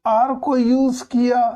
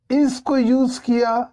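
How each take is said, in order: First: "are" raised and pushed high; "are" hit high as the right choice; stress on are. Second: "is" raised and pushed high; "is" hit high as the wrong choice; stress on is. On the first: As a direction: lift the word "are" to mark it right. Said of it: "तो ये सही है". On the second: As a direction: lift the word "is" to mark it wrong. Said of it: "तो ये गलत है". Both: Shown as a demonstration.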